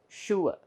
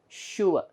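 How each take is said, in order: No difference in how they are said.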